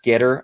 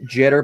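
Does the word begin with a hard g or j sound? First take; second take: hard g; j sound. First: The word begins with a hard g sound. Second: The word begins with a soft j sound. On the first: This is probably the correct pronunciation. "but I think it's Gitter" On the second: This is how the speaker personally says it. "I pronounce it jitter"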